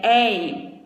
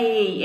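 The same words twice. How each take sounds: First: "ei" with an open e, as in papéis. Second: "ei" with a closed e, as in lei. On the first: Teacher showing the open diphthong, open-vowel "ei". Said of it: "Quando ele é aberto". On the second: Teacher showing what an open diphthong is not, closed "ei". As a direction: say "ei" with a narrow, closed e. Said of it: "não é ei". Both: Shown as a demonstration.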